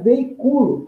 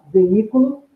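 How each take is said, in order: First: Veiculo as the verb, stressed ve-i-CU-lo; strong cu in veiculo, weak i; paroxytone stress. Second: Veículo as the noun, stressed ve-Í-cu-lo; strong í in veículo, weak cu; proparoxytone stress. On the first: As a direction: punch the u of veiculo. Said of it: "para ser uma paroxítona". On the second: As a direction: punch the í of veículo. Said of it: "a proparoxítona veículo". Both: Shown as a demonstration.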